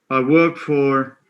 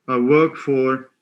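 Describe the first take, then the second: No difference in how they are said.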